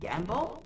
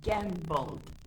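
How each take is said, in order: First: The final d sound is dropped. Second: The final d sound is pronounced. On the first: The speaker calls it wrong. "So I said it gamble" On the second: The speaker calls it right. "but I guess I should say it gambled"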